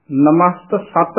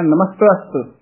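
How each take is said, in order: First: "ਨਮਸਤ ਸਤ" as two words with full sat; wrong split demo. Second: "ਨਮਸਤਸਤ" run together without a break; quick joined pronunciation. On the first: Teacher shows what not to say, split pronunciation. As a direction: break before "ਸਤ". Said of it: "ਨਹੀਂ ਬੋਲਣਾ ਹੈ". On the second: Teacher shows it is said quickly, joined word. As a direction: glide through "ਨਮਸਤਸਤ" in one go. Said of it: "ਤੇਜ਼ੀ ਦੇ ਨਾਲ ਬੋਲਣਾ". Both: Shown as a demonstration.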